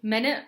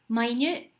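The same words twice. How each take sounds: First: The stress falls on the first syllable. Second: The stress falls on the second syllable. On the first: A unit of time, sixty seconds. "one way to pronounce it is minute" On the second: Very tiny. "another way this can be pronounced is minute"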